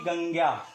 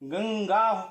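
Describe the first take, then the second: First: The nasal is not said as a full consonant. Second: The nasal is said as a full ng consonant. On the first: The speaker calls it wrong. "ना कि" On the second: The speaker calls it right. "पंचमाक्षर की तरह होगा"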